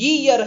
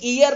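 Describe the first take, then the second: First: The word starts with a y sound. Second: The word starts with a plain vowel sound. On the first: The speaker calls it right. "बल्कि ईयर है, यानी कि य पे बड़ी की मात्रा" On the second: The speaker calls it wrong. "ये ईयर नहीं"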